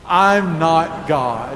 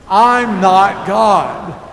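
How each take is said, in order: First: It is said plainly, without extra force. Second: It is said emphatically, with conviction.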